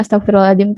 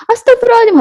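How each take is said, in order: First: Said in the usual way. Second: High-pitched exasperated cry; higher tone. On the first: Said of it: "tuh menenangkan hati". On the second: Acted. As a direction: say it as a scary scolding, pitched way up. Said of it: "nada yang lebih tinggi lagi". (seruan kesal bernada tinggi)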